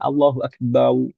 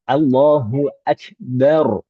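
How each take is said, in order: First: The last syllable ends in a w sound. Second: The last syllable ends in an r sound. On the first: The speaker calls it wrong. "Terkadang ada yang mengucapkan Allahu Akbar, bau, bau" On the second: The speaker calls it right. "Harus uh, ro"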